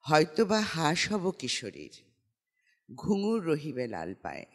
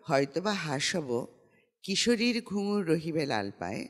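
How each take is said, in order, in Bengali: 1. বিরতিটি 'kishorir'-এর ঠিক পরেই। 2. বিরতিটি 'hob'-এর ঠিক পরেই। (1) "স্ক্যানিংটা কিশোরীতে গিয়ে জ্যোতি চিহ্নটা পড়বে" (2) "তখন মনে হয় কিশোরীর পায়ে ঘুঙুরটা থাকবে"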